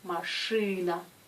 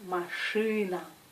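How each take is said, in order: First: The vowel after the consonant sounds hard, like ы. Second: The same.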